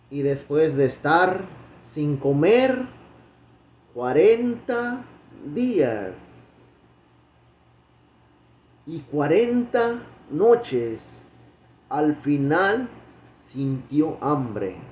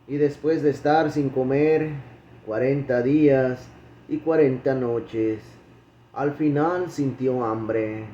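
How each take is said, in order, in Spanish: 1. Se lee a un ritmo más lento y deliberado. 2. Se lee a un ritmo normal, más rápido.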